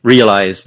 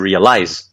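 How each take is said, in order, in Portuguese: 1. A tônica cai na primeira sílaba. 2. A tônica cai em uma sílaba posterior. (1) "verbos terminados em eyes sempre tem a tônica na primeira sílaba" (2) "nunca vai ser realize"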